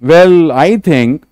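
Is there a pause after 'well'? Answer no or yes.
yes. There is a pause after 'well'. The speaker calls it right. "ये बोलना है"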